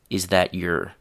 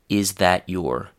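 First: Every word is said fully and clearly. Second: The same.

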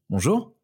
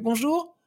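First: It is said in a low, chest-placed voice. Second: It is said in a high head voice.

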